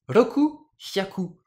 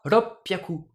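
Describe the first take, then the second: First: Two separate words with no sound change. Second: One fused word with a short catch before p.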